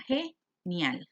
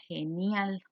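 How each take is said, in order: First: "genial" split ge-nial with a clear pause; divided into syllables. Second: Said in the usual way. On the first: Shown as a demonstration. Teacher showing how the diphthong stays together, "genial" split ge-nial. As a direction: say "genial" as two separate chunks, ge, nial. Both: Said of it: "quedaría dividida genial".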